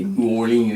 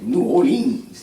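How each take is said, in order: First: Said in the usual way. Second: "New Orleans" stretched out slowly and sung up high; New Orleans accent. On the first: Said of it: "We say New Orleans". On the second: Retold or imitated. Mimicking how they name the city, drawn-out New Orleans accent. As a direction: imitate a local drawing out "New Orleans", pitched up. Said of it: "They be like".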